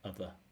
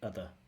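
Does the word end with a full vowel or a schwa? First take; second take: schwa; schwa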